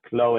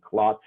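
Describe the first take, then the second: First: The name ends without a T sound. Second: The name ends with a clear T sound. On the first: This is how it is said in France. "In French, it's not pronounced with the T" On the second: This is how it is said in Egypt. "In Egypt, they pronounce the last name with the T"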